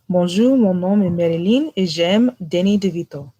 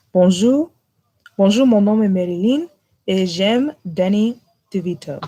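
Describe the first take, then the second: First: Quick French line with an American accent; speaking French. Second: French, accent shifted. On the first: Friend asked for French, spoken in French. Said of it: "I need you to say this in French". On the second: Retrying the French for friends, accent shifted. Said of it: "my accent kinda shifted". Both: Shown as a demonstration.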